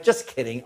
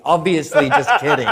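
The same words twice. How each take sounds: First: Much softer, lower, thrown away; quiet aside. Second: Said through a laugh; laughing retraction. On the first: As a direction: mutter it off as a quick retraction. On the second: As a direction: laugh it off as obvious. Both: Retold or imitated. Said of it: "And I went".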